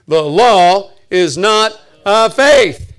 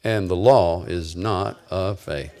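First: Loud, very slow, word by word; booming, spaced-out declaration; emphatic recitation. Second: Slow, low line to repeat; deliberate, low-pitched recital; measured recitation. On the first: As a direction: drive each word home to the congregation. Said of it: "Say it". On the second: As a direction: lead the congregation through it slowly. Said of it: "say this with me". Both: Shown as a demonstration.

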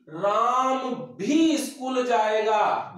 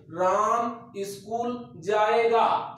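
First: Slow, with भी pushed hard and drawn out; stress on भी. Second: Said in the usual way. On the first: Shown as a demonstration. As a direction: lean on भी so it means Ram too. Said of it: "वाक्य में जोर हो गया है". (भी पर ज़ोर देकर धीरे बोलें) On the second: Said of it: "बिल्कुल सिंपल वाक्य है".

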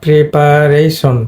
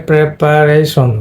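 First: Preparation with first syllable as pree; common mispronunciation of preparation. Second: Preparation with short prep opening; correct preparation. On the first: Teacher showing students how we usually say preparation, pree sound. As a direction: say pree-pa-ray-shon, slowly sounded out. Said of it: "এটা আমরা বলি". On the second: Teacher giving students the corrected preparation, short e in prep. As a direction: slowly sound out prep-pa-ray-shon. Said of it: "কিন্তু এটা হবে তোমার". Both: Shown as a demonstration.

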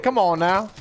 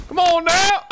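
First: Said in the usual way. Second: "Come on now" pitched way up, rising on now; high disbelieving whine. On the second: Real, not acted. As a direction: plead with the game, high and rising.

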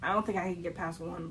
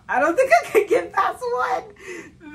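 First: Said in the usual way. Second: Slow, high, loud laughing cry; high laughing wail. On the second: Real, not acted. Vlogger dreading the dry biscuit challenge, high laughing wail.

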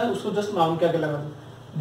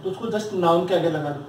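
First: Slower, spelled-out restatement of the rule; slow emphatic repeat. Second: Said in the usual way. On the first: Shown as a demonstration. Teacher repeating the rule to students, slowly. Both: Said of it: "क्या?".

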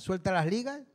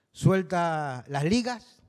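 First: Said in the usual way. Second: Slow Canarian phrase. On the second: Shown as a demonstration. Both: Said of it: "como diríamos aquí en Canarias".

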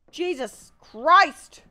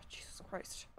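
First: Loud, high, very drawn-out oath; slow, raised-voice cry of frustration; exasperated shout. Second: Whispered curse under the breath; barely audible, voiceless muttered oath; exasperated whisper. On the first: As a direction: stretch each word out in loud exasperation. Exasperated outburst at the game. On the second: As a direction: breathe it out, fed up. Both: Real, not acted.

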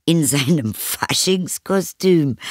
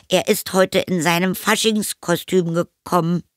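First: High, slow, amused echo question; amused mother. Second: Put-on high, strained boy voice; boy fibbing. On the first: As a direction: repeat the child's excuse in amused disbelief. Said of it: "lachte die Mutter". (belustigt staunende Mutter) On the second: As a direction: offer a shaky cover story as a child. Boy inventing excuse for hidden friend. (hohe Jungenstimme mit Notlüge) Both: A narrator's reading.

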